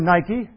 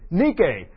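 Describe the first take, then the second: First: It is pronounced like the sneaker brand. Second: It is pronounced as the Greek word. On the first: "the sneakers" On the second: "the Greek word for victory"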